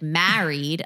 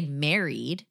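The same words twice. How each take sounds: First: Married with the vowel of "cat"; imitated married pronunciation. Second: Married said as MARE-eed; Scott's married pronunciation. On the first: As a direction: say "Married" as MAA-reed. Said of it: "I love that she was like". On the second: Retold or imitated. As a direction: say "married" with the vowel of "merry". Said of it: "a Scot would say married".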